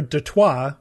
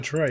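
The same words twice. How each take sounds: First: It is said with a French pronunciation. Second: It is said with an American pronunciation. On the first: This is the original name. "Detroit was named after Detroit" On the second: This is the adapted form of the name. "which we just Americanized to Detroit"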